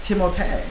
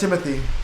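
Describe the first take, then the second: First: The name ends with an 'ay' sound. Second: The name ends with an 'ee' sound. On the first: This is the original French form of the name. The speaker calls it right. "his name is technically like the French version" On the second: This is how most people say the name. The speaker calls it wrong. "Everyone does Timothy"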